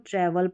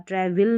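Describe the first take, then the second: First: The last vowel is a weak 'uh' sound. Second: The last vowel is a full 'e' sound. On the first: The speaker calls it right. "इसको ट्रैवल पढ़ा" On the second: The speaker calls it wrong. "ट्रैवल नहीं पढ़ते"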